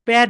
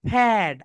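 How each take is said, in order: First: The word begins with a plain, unaspirated p. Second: The word begins with an aspirated ph sound. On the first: The speaker calls it wrong. "প্যাড প্যাড বলি, right? ... That is wrong." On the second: The speaker calls it right. "কিন্তু right pronunciation is ফ্যাট। ... Upper lip lower lip touch together"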